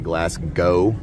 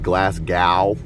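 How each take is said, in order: First: The final W is silent; it ends like go. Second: The final W is sounded in the ending. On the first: The speaker calls it right. "it's actually Glasgow, like go" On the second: The speaker calls it wrong. "A lot of people um, like to say"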